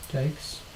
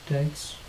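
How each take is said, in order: Both takes have the same delivery.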